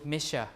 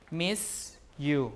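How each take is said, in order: First: The s and the y merge into sh. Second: The s and the y stay separate.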